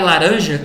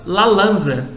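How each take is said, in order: First: The word is pronounced with its adult sounds. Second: The word is pronounced with a child's sound swaps. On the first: The speaker calls it right. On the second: The speaker calls it wrong.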